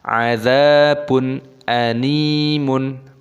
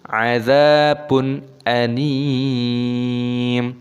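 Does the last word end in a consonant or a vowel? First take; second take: vowel; consonant. First: The last word ends with an added vowel. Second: The last word ends on a bare m. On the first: The speaker calls it wrong. "jangan dibaca azabun animun" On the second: The speaker calls it right. "dan mimnya di sini disukun"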